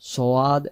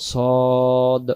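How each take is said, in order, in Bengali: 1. নামে s-এর পরে w-এর মতো একটি গ্লাইড আছে। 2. নামে s-এর পরে কোনো গ্লাইড নেই। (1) "সোয়াদ সোয়াদ এমন হবে না" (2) "উচ্চারণ নাম সদ"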